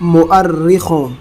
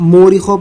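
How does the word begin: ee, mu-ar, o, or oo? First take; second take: mu-ar; oo. First: It begins 'mu-ar' with a doubled r. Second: It begins with a long 'oo' sound. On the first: The speaker calls it right. "इसका सही तलफ़्फ़ुज़ है dictionary में मुअर्रिखों" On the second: The speaker calls it wrong. "बहुत से लोग इसको मूरिखों पढ़ते हैं"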